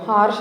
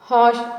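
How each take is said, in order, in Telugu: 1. sh ముందు r ధ్వని వినిపిస్తుంది. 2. sh ముందు r ధ్వని వినిపించదు. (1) "హార్ష్ అనేది రాంగ్ ప్రొనౌన్సియేషన్ అండి" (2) "హాష్ హాష్ అని పలకాలి"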